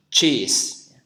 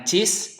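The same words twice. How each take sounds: First: "cheese" with a strong airy ch and long ee; correct English ch. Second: "cheese" with a short Indonesian c and short vowel, like "chis"; wrong Indonesian reading. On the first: Teacher showing the right reading, emphatic English "cheese". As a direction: model "cheese" firmly with English ch. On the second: Teacher showing what not to say, short Indonesian "cheese". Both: Shown as a demonstration. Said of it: "Bukan cheese, tapi C".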